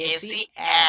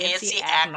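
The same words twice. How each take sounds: First: AC read as open "এ", no final k; correct reading. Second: AC read as "এক" with a closing k; wrong reading. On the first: Teacher showing learners how AC is read here, correct reading. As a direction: say "এ সি", then "এ" with the k dropped. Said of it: "এ পড়তে হবে". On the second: Teacher showing learners the misreading of AC, wrong reading. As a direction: say "এ সি এক", ending on a k sound. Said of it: "কিন্তু এ সি এক নয়". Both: Shown as a demonstration.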